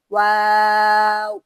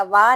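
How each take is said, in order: First: واو drawn out slowly and louder, ending on a full w; the right way, slow and full; correct version. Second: وا said short as plain "wa", with no final w glide; the incorrect short وا; wrong version. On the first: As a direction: stretch the correct واو long and clear. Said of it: "بلکہ واو". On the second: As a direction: clip it to "wa" as the mistake to avoid. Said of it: "یا وا نہیں پڑھنا". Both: Shown as a demonstration.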